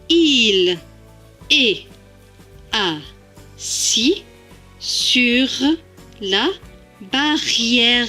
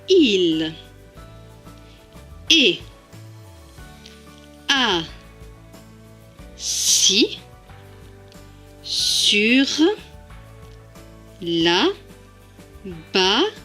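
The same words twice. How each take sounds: First: The sentence is said fast. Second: The sentence is said slowly.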